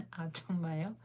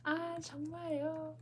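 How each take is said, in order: First: 아, 정말요? said in plain speaking pitch; a first try at 아, 정말요? in her own voice; plain Korean try. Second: 아, 정말요? said high and soft, a learner's careful try; Korean, pitched up. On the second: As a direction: lift 아, 정말요? up high like a native. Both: Shown as a demonstration. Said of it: "Did I say that right".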